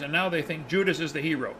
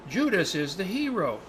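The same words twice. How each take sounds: First: Retold exasperation. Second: Slow, drawn-out mock admiration; retold awed conclusion. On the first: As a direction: wrap up the grievance in disbelief. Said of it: "pulling his hair out". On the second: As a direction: draw it out like a great revelation. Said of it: "And they said".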